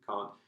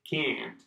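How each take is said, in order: First: The vowel is long and open, as in car. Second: The vowel is short and flat, as in cat. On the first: "comme la voiture, car, can't. This is the British standard pronunciation" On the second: "in America, it's probably can, can, or can't"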